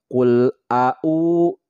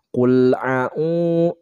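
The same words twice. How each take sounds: First: Both vowels start with a glottal stop. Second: Both vowels start with a throat ain sound. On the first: "jadi kedua-duanya alif" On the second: "jadi kedua-duanya ain"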